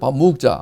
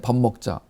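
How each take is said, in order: First: It is said in a regional dialect accent. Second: It is said in a standard Korean accent.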